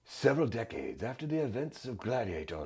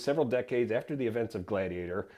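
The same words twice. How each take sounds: First: It is read in a put-on dramatic gladiator voice. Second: It is read in the speaker's ordinary voice.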